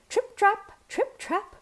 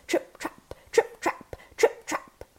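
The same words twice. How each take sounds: First: High, light trip-trap; tiny goat's trot. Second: Heavier, voiceless TRIP-TRAP; weighted goat's steps. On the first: Tiny goat trotting over bridge. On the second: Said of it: "By adding weight to his step with rocks". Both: A narrator's reading.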